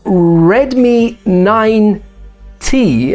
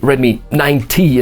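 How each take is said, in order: First: The name is said very slowly and clearly. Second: The name is said quickly, sounding like ninety. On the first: The speaker calls it right. "I'm saying it super slowly" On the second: The speaker calls it wrong. "if I say quickly"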